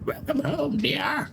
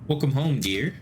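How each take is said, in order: First: It is said in a put-on granny voice. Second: It is said in the speaker's normal voice.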